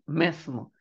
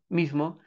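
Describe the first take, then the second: First: The first vowel sounds like 'e'. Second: The first vowel sounds like 'i'. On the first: The older original form of the word. "antes debería pronunciarse como mesmo" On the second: The easier form people adopted. "a la gente se le hacía más fácil pronunciar mismo"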